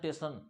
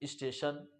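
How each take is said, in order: First: The word begins directly with a t sound. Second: The word begins with an s before the t. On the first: This is how common people say it. The speaker calls it wrong. "वो क्या बोलते हैं? टेशन टेशन" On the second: This is the original form of the word. The speaker calls it right. "लेकिन है क्या? स्टेशन"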